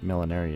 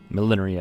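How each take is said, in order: First: It is said with the speaker's local pronunciation. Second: It is said with a British pronunciation. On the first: "is what we call it here" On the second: "I think, is the British pronunciation"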